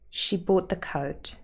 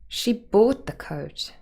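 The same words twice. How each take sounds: First: The stress falls on the word coat. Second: The stress falls on the word bought. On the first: "In the unmarked version, coat is the last content word and would be stressed" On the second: "we could move the stress to bought"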